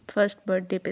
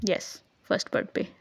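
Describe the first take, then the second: First: Said in the usual way. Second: "first birth पे" whispered under the breath as a slip of the tongue; a soft unvoiced mumble of "first birth पे". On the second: Real, not acted. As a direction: breathe "first birth पे" almost voicelessly, like a quick mistake. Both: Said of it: "sorry".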